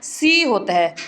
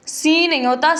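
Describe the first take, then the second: First: سی read short with a falling tune; سی said plainly without the long stretch; سی flat, as learners wrongly read it. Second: سی said higher with a rising tune; سی lifted and stressed to show it right; correct reading. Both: Shown as a demonstration. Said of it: "سین کی آواز نہیں آنی چاہیے".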